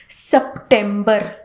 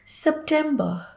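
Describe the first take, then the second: First: The final R sound is pronounced. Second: The final R sound is dropped. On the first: The speaker calls it wrong. "one of the most incorrectly pronounced months" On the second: The speaker calls it right. "if you do not pronounce the R at the end"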